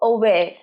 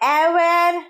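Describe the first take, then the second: First: The first vowel sounds like 'uh'. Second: The first vowel sounds like 'eh'. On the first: The speaker calls it right. "সঠিক উচ্চারণ কি? অ অ aware" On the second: The speaker calls it wrong. "aware নয়। তোমরা অনেকেই এটাকে এ উচ্চারণ করো।"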